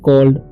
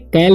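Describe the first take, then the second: First: The vowel sounds like the one in 'caught'. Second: The vowel sounds like the one in 'cat'. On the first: The speaker calls it right. "इसे पढ़ना है कॉल्ड" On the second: The speaker calls it wrong. "इसे कैल्ड नहीं पढ़ेंगे, बहुत सारे students गलती करते रहते हैं"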